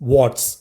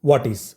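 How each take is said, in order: First: The two words merge into one short syllable. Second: Both words are said fully and separately. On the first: "ചുരുക്കി എങ്ങനെ pronounce ചെയ്യാം" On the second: "വാട്ട് ഈസ് എന്ന് പറയുന്നതിനെ"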